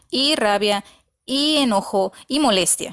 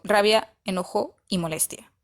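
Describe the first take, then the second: First: "y" before each of "rabia", "enojo", "molestia", each pair punched separately; repeated "y". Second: Said in the usual way. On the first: Shown as a demonstration. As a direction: list "y rabia, y enojo, y molestia" in three emphatic beats. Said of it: "usaba la Y hasta tres veces". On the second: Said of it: "Pudo haber sido".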